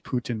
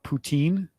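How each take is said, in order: First: It ends in a short 'tin' sound. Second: It ends in a long 'teen' sound. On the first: The speaker calls it right. "but it is Putin, like Vladimir Putin" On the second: The speaker calls it wrong. "Americans who who don't pronounce it the same, we call it poutine"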